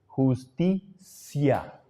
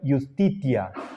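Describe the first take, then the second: First: The second ti is said with an s sound. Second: The second ti is said with a t sound. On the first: It follows the Spanish reading of the Latin word. "La pronunciación castellana es pronunciarle la T como si fuera C" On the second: It follows the historical classical pronunciation. "si nosotros queremos apegarnos a lo que fue la pronunciación histórica, leeríamos"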